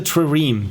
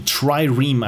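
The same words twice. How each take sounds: First: "trireme" with a short unclear first syllable, like truh-reem; "trireme" begun with a quick schwa, not "try". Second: "trireme" said as TRY-reem; "trireme" corrected to try-reem, both syllables distinct. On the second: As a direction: open "trireme" with a clear long i, as in "try". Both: Real, not acted. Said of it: "I think that's, that's how you pronounce it".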